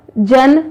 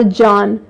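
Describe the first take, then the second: First: "जन" with a short neutral vowel. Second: "जान" with an open, long aa. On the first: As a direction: keep the vowel of "जन" brief. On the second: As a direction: hold the vowel of "जान". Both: Shown as a demonstration. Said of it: "मात्रा से भी इसमें परिवर्तन".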